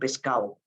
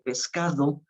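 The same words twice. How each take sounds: First: The d between the last vowels is dropped. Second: The d between the last vowels is pronounced. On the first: "La D intervocálica se pierde" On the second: "la gente no dice"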